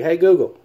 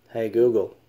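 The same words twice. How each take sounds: First: Loud, high call to the phone. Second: Said in the usual way. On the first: Real, not acted. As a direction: call out clearly to the device. Calling the voice assistant. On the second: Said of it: "I think it's my southern accent".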